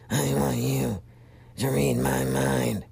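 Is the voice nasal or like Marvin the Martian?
nasal. It is spoken up in the nose.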